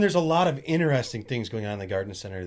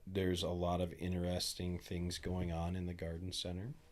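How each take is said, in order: First: It is said with more lively energy. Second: It is said with ordinary, low energy.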